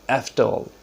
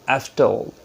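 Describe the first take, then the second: No difference in how they are said.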